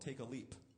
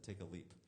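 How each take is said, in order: First: Each word is clearly and carefully enunciated. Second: The words run together loosely and casually. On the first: "I didn't say it enunciated like that" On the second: "but I said"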